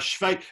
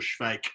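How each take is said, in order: First: The name is given its German pronunciation. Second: The name is given its Czech pronunciation. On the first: "that's the German way of saying it" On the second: "You can say in Czech it's good soldier Schweik"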